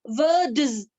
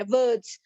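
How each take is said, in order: First: वर्ड्स pronounced louder and drawn out; broken-up word. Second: Said in the usual way. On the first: Shown as a demonstration. Teacher breaking a word for the class, sounding out वर्ड्स. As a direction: sound out वर्ड्स firmly, stretching it to show its parts. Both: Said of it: "जब आप word को तोड़ते हैं".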